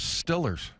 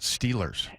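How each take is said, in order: First: The first vowel is short, like 'still'. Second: The first vowel is long, like 'steel'. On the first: It is the local Pittsburgh way of saying it. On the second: It is the standard way of saying it.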